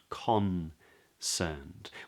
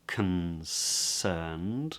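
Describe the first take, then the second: First: The first vowel is a full O sound. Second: The first vowel is reduced to a schwa. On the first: "they have this lovely O sound" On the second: "drops into a schwa"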